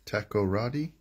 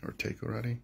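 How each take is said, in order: First: "Takoradi" with a short "tack" first syllable, rising; unsure pronunciation. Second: "Takoradi" with "tay" as first syllable, softer; alternative pronunciation. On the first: Host guessing a Ghanaian place name, "Takoradi" said with "tack". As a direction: ask "Takoradi?" starting with "tack". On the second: Host trying another guess at the town, "Takoradi" said with "tay". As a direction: offer "Takoradi" starting like "take". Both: Real, not acted. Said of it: "I don't know how to pronounce that".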